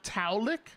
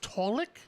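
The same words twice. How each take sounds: First: The first syllable sounds like 'tau'. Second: The first syllable sounds like 'tall'. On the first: The speaker calls it wrong. "and not Taulik" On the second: The speaker calls it right. "apparently it's Taulik"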